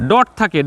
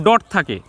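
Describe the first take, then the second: No difference in how they are said.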